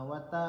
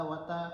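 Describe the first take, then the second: No difference in how they are said.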